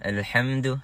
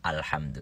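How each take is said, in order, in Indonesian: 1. Vokal A teredam, mulut hampir tidak terbuka. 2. Vokal A terbuka dan diucapkan dengan jelas. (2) "harus A"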